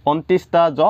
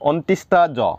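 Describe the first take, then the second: No difference in how they are said.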